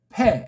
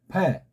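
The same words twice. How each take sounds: First: The first consonant is strong and forceful. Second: The first consonant is soft and gentle. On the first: "이건 강하게 원리대로" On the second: "의자 같은 걸 넣으면서 부드럽게"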